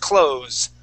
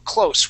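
First: The word ends with a z sound. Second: The word ends with an s sound. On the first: It means to shut something. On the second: It means near in distance.

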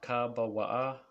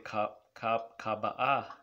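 First: The word has a w sound in the middle. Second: The word has no w sound in the middle. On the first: The speaker calls it right. "the reason why you need the wa here" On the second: The speaker calls it wrong. "you don't want to say kaba'ah"

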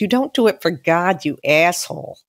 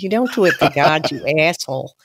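First: It is said in the speaker's plain accent. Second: It is said in a Boston accent.

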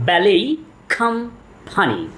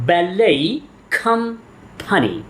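The two takes are said the same way.

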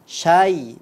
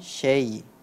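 First: The vowel after 'sh' is an open 'a'. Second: The vowel after 'sh' sounds like 'e'. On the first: The speaker calls it right. "itu tetap bacanya syai" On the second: The speaker calls it wrong. "bukan syai"

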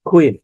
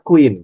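First: The first k sound has a puff of air. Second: The first k sound has no puff of air. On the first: The speaker calls it right. "সবগুলোতে দেখেন খ রয়েছে" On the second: The speaker calls it wrong. "Not ক, not কুইন"

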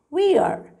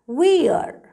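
First: The words are joined into one short syllable. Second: The same.

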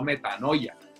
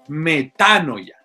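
First: The stress falls away from the 'a' sound. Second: The stress falls on the 'a' sound. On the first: The speaker calls it wrong. "No como yo he escuchado a alguna gente por ahí" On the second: The speaker calls it right. "hablen bien"

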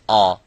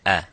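First: The vowel is heavy and full-mouthed. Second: The vowel is light, not full-mouthed. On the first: The speaker calls it wrong. "the attribute of full mouth by saying ah" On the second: The speaker calls it right. "but it is a"

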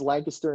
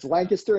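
First: The name is pronounced the way Pennsylvania says it. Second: The name is pronounced the way England says it. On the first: This is how the Pennsylvania town is named. "It's Lancaster in Pennsylvania" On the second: This is how the English town is named. "it's Lancaster in England"

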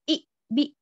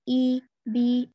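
First: The vowel is said with an abrupt jerk. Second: The vowel is said softly and smoothly. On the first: The speaker calls it wrong. "झटके के बगैर यानी कि जर्क के बगैर इस तरह ई बी इस तरह नहीं करेंगे" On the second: The speaker calls it right. "इस तरह से नरमी से कसरा को भी अदा करेंगे"

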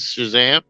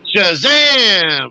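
First: The word is said quietly and flatly. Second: The word is said loudly with dramatic energy. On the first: The speaker calls it wrong. "something like that versus" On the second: The speaker calls it right. "you would say it with the player, like"

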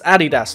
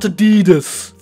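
First: The name is said the German way. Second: The name is said the American way. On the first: This is how the brand's home country says it. The speaker calls it right. "the Germans pronounce it Adidas" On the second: This is how people in the United States say it. The speaker calls it wrong. "that means the Americans are wrong"

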